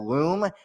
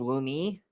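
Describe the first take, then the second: First: The name ends on the 'm' sound. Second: The name ends with an added 'ee' vowel. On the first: It names a separate software company. "if you just pronounce it Loom" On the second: It names the speaker's own project. "I will intentionally pronounce it with an E at the end"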